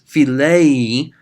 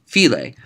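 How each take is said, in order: First: Philei drawn out slowly with a rising tune; stretched out. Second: Phile said short as a command, fi-LAY; short and sharp. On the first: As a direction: stretch philei long, with the circumflex sound. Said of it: "say philei and stretch it out". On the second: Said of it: "pronounce it short like that". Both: Shown as a demonstration.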